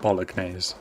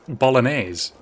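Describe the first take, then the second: First: The G sound is clearly pronounced. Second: The G sound is left silent. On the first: The speaker calls it wrong. "making sure that I said the G, calling it bolognese" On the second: The speaker calls it right. "There's a G in it, yeah, but bolognese"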